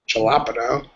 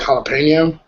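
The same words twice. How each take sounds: First: The first consonant is pronounced like an English J. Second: The first consonant is pronounced like an H. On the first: The speaker calls it wrong. "You wouldn't say jalapeno" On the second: The speaker calls it right. "The J sounds like an H. So kind of like jalapeno"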